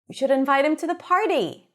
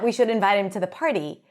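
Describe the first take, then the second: First: The word party is stressed with higher pitch. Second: The word we is stressed with higher pitch. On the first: He should be invited to the party, not another meal. "highlight the word party" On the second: Those speaking, not others, should invite him. "it should be us who invite him to the party"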